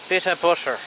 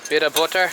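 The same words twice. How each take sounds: First: It is said in an Irish accent. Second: It is said in the speaker's ordinary accent.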